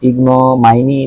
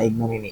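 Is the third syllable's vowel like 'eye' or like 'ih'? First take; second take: eye; ih. First: The third syllable has an 'eye' vowel. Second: The third syllable has a short 'ih' vowel. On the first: The speaker calls it wrong. "ইগনোমাইনি না" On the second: The speaker calls it right. "ইগনোমিনি yes I was right"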